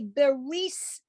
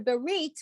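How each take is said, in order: First: The word ends with an S sound. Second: The word ends with a T sound. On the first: This is the older Eastern European Yiddish pronunciation. "that letter was pronounced like an S as in Sam"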